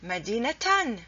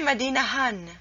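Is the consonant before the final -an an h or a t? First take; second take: t; h. First: The word ends in -atan with a t sound. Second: The word ends in -ahan with an h sound. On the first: The speaker calls it right. "It's Medinatan" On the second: The speaker calls it wrong. "You don't say Medinahan"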